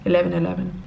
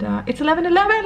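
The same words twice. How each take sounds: First: Said in the usual way. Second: Excited. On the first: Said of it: "Make the magic happen". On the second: Real, not acted. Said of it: "let's make a wish".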